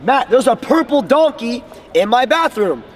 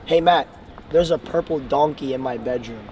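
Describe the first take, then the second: First: It is said in an excited, energetic way. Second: It is said in a flat, unexcited way.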